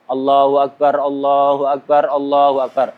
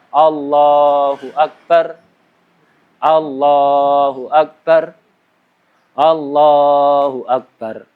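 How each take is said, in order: First: The three phrases run on without stopping. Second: The voice stops after each single phrase. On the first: The speaker calls it right. "Langsung tiga kali takbir berurut-urut" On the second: The speaker calls it wrong. "bukan satu berhenti, satu berhenti, satu berhenti"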